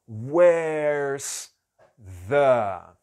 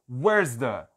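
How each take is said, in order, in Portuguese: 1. A frase é dita bem devagar, com uma pausa. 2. A frase é dita rapidamente e com fluidez. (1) "eu fiz em super câmera lenta, pausado" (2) "não adianta você falar where's the"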